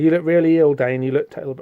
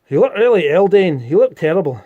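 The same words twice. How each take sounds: First: It is said in a plain, non-Scottish accent. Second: It is said in a Scottish accent.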